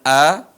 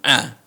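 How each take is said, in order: First: It starts as a plain vowel. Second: It starts with a deep throat sound. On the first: The speaker calls it wrong. "bukan a ya" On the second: The speaker calls it right. "suara yang dalam"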